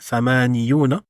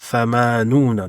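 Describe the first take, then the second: First: A y sound comes before the ending. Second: No y sound comes before the ending. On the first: The speaker calls it wrong. "qui est considéré lourd à dire" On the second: The speaker calls it right. "ils ont supprimé le ya"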